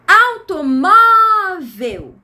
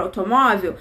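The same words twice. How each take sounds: First: AUTOMÓVEL with MÓ loud, high and drawn out; stress on MÓ. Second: Said in the usual way. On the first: Shown as a demonstration. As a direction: hugely stretch the MÓ in AUTOMÓVEL. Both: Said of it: "A sílaba mais forte da palavra automóvel".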